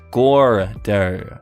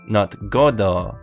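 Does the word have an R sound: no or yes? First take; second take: yes; no. First: The word is said with an R sound. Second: The word is said without an R sound. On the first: It means fat ass. "with an R" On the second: It is the uncle's name.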